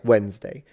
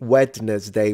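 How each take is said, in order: First: The 'd' is silent, in a shortened form. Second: Every written letter is sounded, including the 'd'. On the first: "no, just think Wednesday" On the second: "which is how every um, beginner of English mispronounces it"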